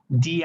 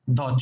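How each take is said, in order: First: The word ends in an 'ee' vowel. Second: The word ends in a non-'ee' vowel. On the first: The next word starts with a vowel. "we use it the with the I pronunciation when the noun begins with a vowel" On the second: The next word starts with a consonant. "the other pronunciation"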